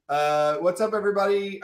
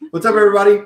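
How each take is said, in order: First: Said in the usual way. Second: Big hype hello to the chat; loud greeting. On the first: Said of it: "same greeting in usual voice". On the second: Acted. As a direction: call it out loud to the viewers. Loud stream greeting to viewers.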